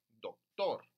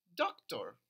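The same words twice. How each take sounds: First: The stress is on the second syllable. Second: The stress is on the first syllable. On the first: This is the Spanish pronunciation. "La frase fuerte es aquí, tor" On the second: This is the English pronunciation. "en inglés es al revés. Sería aquí en doc"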